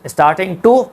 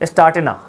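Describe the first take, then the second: First: Every sound of 'starting to' is fully pronounced. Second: The g is dropped and 'to' becomes 'a'.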